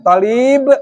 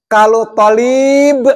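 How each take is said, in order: First: Tolib said short and clipped; short vowel. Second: Tolib with the to drawn out long; long vowel. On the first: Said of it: "maha santri atau mahasiswa". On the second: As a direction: stretch the first vowel of tolib. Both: Shown as a demonstration.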